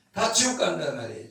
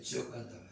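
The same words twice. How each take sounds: First: Said in the usual way. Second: Much softer, lower repeat of 지옥 간단 말이에요; soft echo. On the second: Real, not acted. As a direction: drop the voice for the echo. Quiet echo of previous line.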